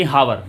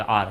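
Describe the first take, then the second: First: हावर with an audible H and two syllables; sounded H. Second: आर starting on a long "aa", no H; silent H. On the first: Teacher showing what not to say, हावर with sounded H. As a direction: wrongly voice the H in हावर. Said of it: "ये हावर नहीं होता". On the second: Teacher showing how hour is read, आर with silent H. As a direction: say आर as one open syllable without H. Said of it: "क्योंकि ये पढ़ने में आर आएगा". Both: Shown as a demonstration.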